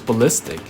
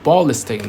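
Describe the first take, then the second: First: The stress is on the second syllable. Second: The stress is on the first syllable. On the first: The speaker calls it right. "but it was ballistic" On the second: The speaker calls it wrong. "I thought you have to emphasize on the ball"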